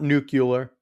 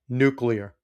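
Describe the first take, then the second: First: The word is said with an extra syllable: nu-cu-lar. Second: The word is said as spelled: nu-clear. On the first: The speaker calls it wrong. "you're too smart of a guy to be saying it wrong" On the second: The speaker calls it right. "It's spelled nuclear"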